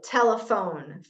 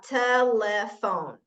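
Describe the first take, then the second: First: Said in the usual way. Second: "telephone" slowly split into te, le, phone; separated syllables. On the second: Shown as a demonstration. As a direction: say "telephone" syllable by syllable, with small gaps. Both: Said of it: "like an example".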